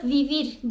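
The word starts with a v sound. This is how it is said in many South American countries. "orada vivir diyebiliyorsunuz"

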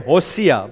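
The name is said with an Afrikaans pronunciation. "but that's Afrikaans"

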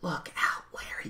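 The phrase is whispered softly. "You could do a whisper voice there"

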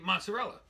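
It is said with an American pronunciation.

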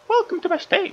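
It is said in a Mickey Mouse voice.

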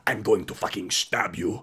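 It is spoken in a Russian accent. The threat sounds terrifying. "in a Russian accent"

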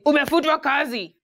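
It is said in a blunt, harsh tone.

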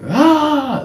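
It is a shouted yell.

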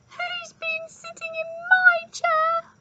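It is said in a squeaky voice.

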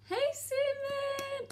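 It is said in a high-pitched voice.

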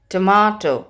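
It is said in a British English accent. "In British English, we say tomato"

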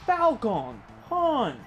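The voice is clean and clearly enunciated. "Very clearly"

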